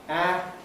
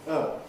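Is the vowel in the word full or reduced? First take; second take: full; reduced. First: The word has a full, strong vowel. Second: The word has a reduced, weak vowel. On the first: The word is stressed. "The strong form is" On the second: The word is unstressed in a sentence. "the weak form is"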